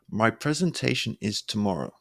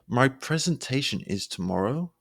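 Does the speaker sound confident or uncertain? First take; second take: confident; uncertain. First: It sounds assured, with stress on the last word. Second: It sounds uncertain, like a question. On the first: The speaker knows what they are talking about. The speaker calls it right. "when you stress tomorrow, it will sound assured" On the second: The speaker seems unsure of what they are saying. The speaker calls it wrong. "this sounds like a question"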